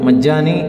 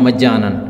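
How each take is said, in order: First: The word ends in a long 'ee' sound. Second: The word ends in an 'an' sound. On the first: This is how it is commonly said in everyday speech. "बहुत से लोग इसको मज्जानी पढ़ते हैं और बोलते हैं" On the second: This is how it is more often written. "मज्जानन ज़्यादा लिखा होता है"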